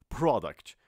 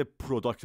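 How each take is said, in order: First: "پروداکت" with the first syllable said as "pra"; right pra-duct. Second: "پروداکت" with the first syllable said as "pro"; wrong pro-duct. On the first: Teacher repeats the right "پروداکت" for the class, "pra" opening. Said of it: "پرو نه، پرا". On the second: Teacher shows students the mistaken "پروداکت", "pro" opening. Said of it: "پرو نه". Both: Shown as a demonstration.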